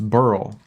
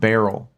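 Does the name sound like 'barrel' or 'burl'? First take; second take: burl; barrel. First: The name sounds like 'burl', one short syllable. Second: The name sounds like 'barrel', two syllables. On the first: The speaker calls it right. "That name is pronounced Burl" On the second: The speaker calls it wrong. "not Barrel"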